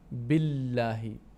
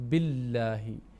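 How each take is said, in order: No difference in how they are said.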